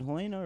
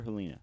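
First: Helena said "heh-LAY-nuh"; first pronunciation. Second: Helena said "heh-LEE-nuh"; second pronunciation. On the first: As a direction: stress the middle of Helena, rhyming it with "rain-a". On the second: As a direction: stress the middle of Helena, as in "lean-a". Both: Shown as a demonstration. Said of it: "There's multiple ways to say it".

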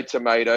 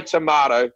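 First: "tomato" as tuh-MAY-doe; American pronunciation. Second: "tomato" as tuh-MAH-toe; British-style pronunciation. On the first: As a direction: say "tomato" with an ay vowel. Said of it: "I don't say tomato". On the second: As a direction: say "tomato" with a long ah. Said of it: "I still say tomato". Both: Shown as a demonstration.

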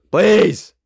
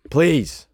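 First: Louder, higher insistent PLEASE; emphatic plea. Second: Said in the usual way. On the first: Real, not acted. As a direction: beg harder, pushing "please" up and out.

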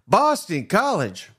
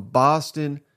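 First: Boston College drawn out slow and high; incredulous. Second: Said in the usual way. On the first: Real, not acted. Host stunned at Boston College outbidding them.

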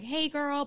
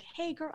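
First: Shrill high squeal of a greeting; very high-pitched. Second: A held-back hint of a high girly greeting; toned-down shrill friend. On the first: Retold or imitated. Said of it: "really very high-pitched". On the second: Imitating a shrill friend but holding back out of care for the listeners. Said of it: "someone with shrillness to the voice".

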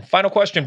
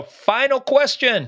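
First: Said in the usual way. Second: High, slow game-show announcement; announcer voice. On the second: Pretend. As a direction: stretch it like a quiz host. Dramatic quiz-show announcement.

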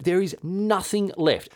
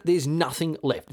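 First: "There is nothing left" said slow, higher, every word weighted; slow, emphatic repeat. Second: Said in the usual way. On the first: Shown as a demonstration. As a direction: lean hard on "There is nothing left", slowly.

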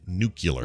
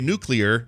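First: "nuclear." said as NOO-kyuh-ler; dad's mispronunciation. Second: "nuclear," said as NOO-klee-er; correct pronunciation. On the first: Retold or imitated. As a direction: swap it to nook-yuh-ler in "nuclear.". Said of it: "my dad said". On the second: Shown as a demonstration. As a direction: clear klee-er ending in "nuclear,". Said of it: "because I can say".

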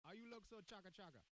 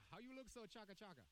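First: Light Jamaican patois lilt on the example; reading the patois example with a mild Jamaican accent. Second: Light Jamaican patois lilt repeated on request. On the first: Reading Urban Dictionary's example to his cohost, mild Jamaican patois. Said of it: "Urban Dictionary, patois example". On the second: Repeating the patois line for his cohost, mild Jamaican patois. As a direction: say it again in a mild Jamaican accent. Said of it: "Can you say that again?". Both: Shown as a demonstration.

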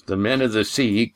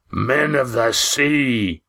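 First: Said in the usual way. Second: Booming, drawn-out exclamation, pitched up; high, long-held incredulous boom; Roaring Jack. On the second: A narrator's reading. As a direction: boom it slowly in a big sailor voice. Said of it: "boomed Roaring Jack".

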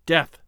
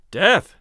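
First: Said in the usual way. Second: "Death" said louder, with firm emphasis; insistent. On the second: A narrator's reading. Man overruling his own doubt, "Death" said insistently and forcefully. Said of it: "he insisted".

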